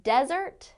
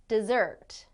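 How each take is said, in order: First: "Desert" stressed on the first syllable, DEZ-ert. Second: "dessert" stressed on the second syllable, de-ZERT. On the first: Teacher contrasting two words, "Desert" stressed up front, DEZ-ert. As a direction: hit the start of "Desert", DEZ-ert, as the noun. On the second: Teacher contrasting two words, "dessert" stressed at the end, de-ZERT. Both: Shown as a demonstration. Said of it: "Do you hear the difference there?".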